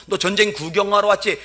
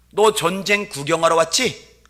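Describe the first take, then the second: First: Louder taunt. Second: Needling taunt. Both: Retold or imitated. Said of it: "염장 지른 소리".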